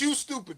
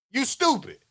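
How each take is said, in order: First: Much softer, thrown away under the breath; muttered aside. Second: Said in the usual way. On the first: Real, not acted. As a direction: drop it to a quiet aside. Repeating insult to audience.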